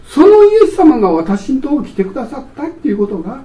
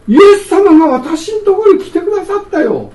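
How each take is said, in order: First: Said in the usual way. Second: Higher, louder, delighted announcement; joyful exclamation. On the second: Acted. Preacher proclaiming to the congregation that Jesus came, joyful and raised. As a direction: proclaim it like wonderful news.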